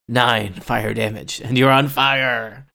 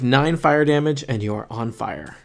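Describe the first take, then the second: First: It is said in a dramatic, menacing tone. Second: It is said in a plain, matter-of-fact tone.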